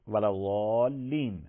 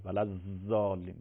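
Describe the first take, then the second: First: ولضالین with a heavy, emphatic ض, long drawn vowel; correct Arabic zad. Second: ولضالین with a buzzing z in place of ض; mispronounced zad. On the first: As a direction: draw out ولضالین slowly, with a thick, dark ض. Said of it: "واد بخونی". (تلفظ درستِ ضاد در «ولضالین»، غلیظ و کشیده) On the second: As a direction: say ولضالین with a long, thin z as in zanbur (bee). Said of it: "این ز زنبوریه". (تلفظ غلطِ «ولضالین» با زِ زنبوری) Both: Shown as a demonstration.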